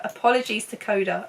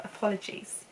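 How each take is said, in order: First: Said in the usual way. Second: Soft, voiceless aside; whispered apology. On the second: Real, not acted. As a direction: whisper it like a small sorry. Hushed repeat of the apology.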